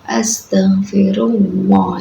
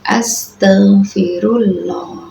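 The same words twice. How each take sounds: First: The L in Allah has a w-like sound. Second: The L in Allah is said thin. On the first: "seakan-akan itu pakainya wawu ya" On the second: "Cara baca yang salah"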